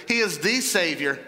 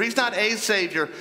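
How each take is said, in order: First: "the" stressed and said "thee". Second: "a" stressed as a long "ay". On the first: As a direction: lean hard on "the" as "thee". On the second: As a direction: lean on "a", saying it "ay". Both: Real, not acted. Contrasting one of many with only one.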